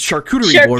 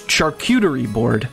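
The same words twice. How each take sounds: First: The middle syllable sounds like the word coot. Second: The middle syllable sounds like the word cute. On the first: The speaker calls it right. "It's the word coot. Yeah, exactly" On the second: The speaker calls it wrong. "Like like the word cute is in it"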